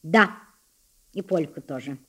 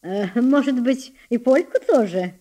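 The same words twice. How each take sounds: First: Restrained. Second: Teasing. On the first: Blushing boy answers his tormentor, restrained. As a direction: hold back, answering low after a pause. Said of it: "ответил сдержанным тоном". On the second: Elder sister goads the boy pianist, teasing. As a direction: taunt him with exaggerated doubt. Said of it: "продолжала дразнить его Лидия". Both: A narrator's reading.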